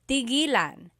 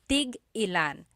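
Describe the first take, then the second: First: The word flows smoothly with no glottal stop. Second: A glottal stop breaks the word after tig. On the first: It means to stop. "When there's no hyphen, tigilan" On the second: It means how many of each. "when there's a hyphen in it, you have to have that glottal stop"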